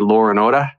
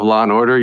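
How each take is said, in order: First: It is said in an Australian accent. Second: It is said in an American accent. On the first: "you put R's where there aren't and you take away R's where there are" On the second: "instead of"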